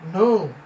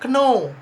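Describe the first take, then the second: First: The k sound is silent at the start. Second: The k sound is pronounced at the start. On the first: The speaker calls it right. "Jadi ini tidak perlu dibaca ya" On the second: The speaker calls it wrong. "Kadang dia baca kno, but it is wrong"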